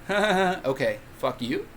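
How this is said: It ends with a rising question tune.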